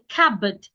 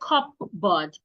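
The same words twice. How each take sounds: First: The P sound is silent. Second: The P sound is pronounced. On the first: The speaker calls it right. "The P is silent" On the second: The speaker calls it wrong. "Do not say cupboard"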